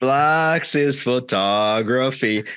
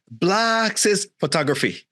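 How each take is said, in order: First: "Blacks is photography" drawn right out, announcer-like; commercial tagline. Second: "Blacks is photography" pitched high, slow, mock-accented; mimicked pronunciation. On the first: Retold or imitated. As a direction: imitate the ad: "Blacks is photography", very slow. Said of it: "Because the commercial". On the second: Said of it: "And then he would say".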